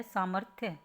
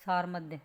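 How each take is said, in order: First: सामर्थ्य said as "saa-marth-ya"; correct pronunciation. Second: सारमध्य said as "saar-madhya"; misspelling read out. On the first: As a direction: put the "r" after m in सामर्थ्य. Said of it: "तो क्या होता है?". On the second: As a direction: put the "r" before m in सारमध्य. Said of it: "ये इसने यहाँ तो लिख रखा है". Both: Shown as a demonstration.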